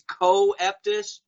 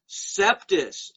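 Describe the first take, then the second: First: The word begins with a hard K sound. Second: The word begins with an S sound. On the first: The speaker calls it wrong. "which the Masons always mispronounce on T V as Coeptus" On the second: The speaker calls it right. "It's Septis, as in Sept"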